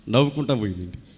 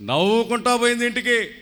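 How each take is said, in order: First: Said in the usual way. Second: Higher, brighter restatement; uplifted repeat. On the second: A narrator's reading. Pastor tells the congregation the girl left laughing, with a joyful lift. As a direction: lift "నవ్వుకుంటా పోయింది ఇంటికి" higher the second time.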